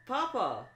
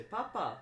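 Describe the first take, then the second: First: High, fancy cry of Papa; posh rich kid Papa. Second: Rich people say. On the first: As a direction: call out like a pampered rich boy. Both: Retold or imitated. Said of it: "rich people say".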